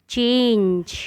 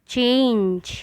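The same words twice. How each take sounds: Both takes have the same delivery.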